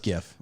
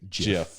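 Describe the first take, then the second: First: The word begins with a hard G sound. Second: The word begins with a soft J sound. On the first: The speaker calls it right. "It's the G from graphics" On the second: The speaker calls it wrong. "I've never heard anyone in the know say GIF"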